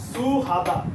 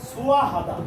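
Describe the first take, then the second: First: The h sound is carried into the next syllable. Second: The h sound is dropped before the vowel. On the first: The speaker calls it wrong. "যদি আমরা বাচ্চিমের রুলস হতো তাহলে সেটা আমাদের বলতে হতো" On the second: The speaker calls it right. "উচ্চারণ হবে কি"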